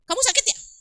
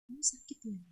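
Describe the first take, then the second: First: It is said in a harsh, sharp tone. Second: It is said in a gentle, soft tone.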